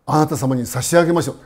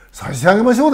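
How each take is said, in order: First: Said in the usual way. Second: 差し上げましょう repeated higher and louder with a rise; stressed repeat. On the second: Shown as a demonstration. Teacher repeating the father's reply to stress 差し上げましょう, raised and louder. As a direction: lift and underline 差し上げましょう. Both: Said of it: "ですからね".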